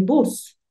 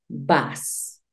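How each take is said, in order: First: Said in the usual way. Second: "vas" as English "bus", the U opened towards A; pronunciación inglesa inicial. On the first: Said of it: "pero la pronunciación cambia". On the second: Shown as a demonstration. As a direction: model "vas" slowly, with an A-like vowel instead of U. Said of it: "inicialmente vamos a decir vas". («vas», bus en inglés con la U como A)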